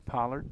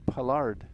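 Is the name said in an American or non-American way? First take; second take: American; non-American. First: The name is said with an American pronunciation. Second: The name is said with a non-American pronunciation. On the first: This is how Americans would say the name. "The Americanized version would be" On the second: This is how the name's owner says it. "accent that he prefers and uses is"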